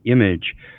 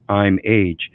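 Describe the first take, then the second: First: It is said as one ordinary word. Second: It is split into two separate words. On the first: The speaker calls it wrong. "people are mispronouncing that" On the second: The speaker calls it right. "it's two words"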